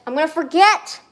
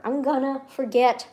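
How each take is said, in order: First: Louder, higher, exasperated cry; panicked outburst. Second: Slow, deliberate admission; measured worry. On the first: Streamer repeating the worry about a birthday, panicked. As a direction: burst out in rising panic. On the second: Streamer worrying about a birthday, measured. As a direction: state it slowly with dread building. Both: Real, not acted.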